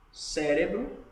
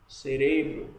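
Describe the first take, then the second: First: Cérebro with stress on the first syllable, CÉ; Portuguese stress. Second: Cerebro with stress on RE; Spanish stress. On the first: Teacher comparing the languages, Cérebro stressed on CÉ. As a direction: punch CÉ at the start of Cérebro. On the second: Teacher comparing the languages, cerebro stressed on middle RE. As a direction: say ce-RE-bro for cerebro, punching RE. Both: Shown as a demonstration. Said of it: "a tonicidade tá sendo diferente".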